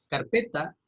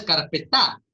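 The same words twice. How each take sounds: First: Said in the usual way. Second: "carpetá" with the stress thrown onto the final TÁ; wrongly accent the final vowel of "carpetá"; stress on last syllable. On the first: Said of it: "no termina en una vocal acentuada". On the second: Shown as a demonstration. Teacher showing students what the word is not, "carpetá" stressed on the final á. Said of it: "No es carpetá".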